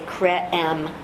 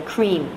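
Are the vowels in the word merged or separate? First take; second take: separate; merged. First: The vowel sounds are said separately. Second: The vowel sounds merge into one sound. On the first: The speaker calls it wrong. "we don't say cre-M" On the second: The speaker calls it right. "We say cream. The E and the A become a new sound"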